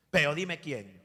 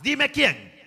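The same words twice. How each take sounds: First: Said in the usual way. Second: High, loud sharp demand; demanding boss. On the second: Retold or imitated. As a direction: insist hard on knowing who. Boss demands the rival's name.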